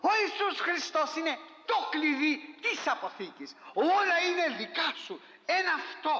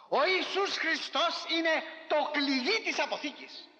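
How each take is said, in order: First: High, ringing preacher's proclamation; preaching shout. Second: Higher, slow proclaimed preaching cry; preaching shout. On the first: Preacher repeating his point to the faithful, raised proclaiming voice. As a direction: lift it up and cry it out to the church. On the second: Preacher to congregation, slow proclaiming shout. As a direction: proclaim it like the heart of the sermon. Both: Real, not acted.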